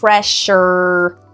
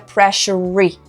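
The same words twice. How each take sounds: First: It ends on the er sound. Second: It ends with an extra vowel sound after er. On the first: The speaker calls it right. "Er, é o último som" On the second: The speaker calls it wrong. "não é pressure"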